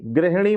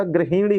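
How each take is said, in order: First: गृहिणी squeezed to "greh-ni"; wrong dropped vowel. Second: गृहिणी said "gri-hi-ṇi"; correct short i. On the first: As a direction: say गृहिणी with no i after h. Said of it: "गृहिणी नहीं होता". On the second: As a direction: sound the i after h in गृहिणी. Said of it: "छोटी की मात्रा होती है". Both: Shown as a demonstration.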